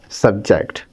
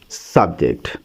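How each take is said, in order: First: The stress is on the second syllable. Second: The stress is on the first syllable. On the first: It is used as a verb. "if we add the stress on the second syllable, jacked, it becomes a verb" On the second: It is used as a noun. "if we put the stress on the first syllable S U B serve, it becomes a noun"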